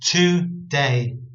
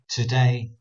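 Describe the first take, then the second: First: The stress is not on the second syllable. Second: The stress is on the second syllable. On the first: The speaker calls it right. "When really I should be reading it as" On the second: The speaker calls it wrong. "I'm still putting the emphasis on the word day"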